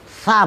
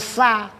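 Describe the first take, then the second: First: It begins with a soft th sound. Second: It begins with a plain s sound. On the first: The speaker calls it right. "Kan huruf sa" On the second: The speaker calls it wrong. "bukan sa"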